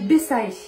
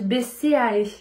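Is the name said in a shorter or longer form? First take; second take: shorter; longer. First: The name is said in a quick, shortened form. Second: The name is said in its full, longer form. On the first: This is the speaker's own habitual pronunciation. "Moi, je dis Bessae. J'aime bien" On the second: This is how people are supposed to say it. "je pense qu'on dit Bessae"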